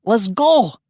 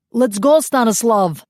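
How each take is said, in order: First: High loud yell; urgent yell to get away. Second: Loud high yell to a comrade; urgent yell to get away. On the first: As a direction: call out to a comrade. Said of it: "Yuri yelled". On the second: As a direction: shout it across the clearing. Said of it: "the captured malcontent yelled". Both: A narrator's reading.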